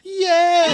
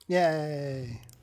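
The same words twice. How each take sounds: First: It is said loudly, with enthusiasm. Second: It is said flatly, with little energy.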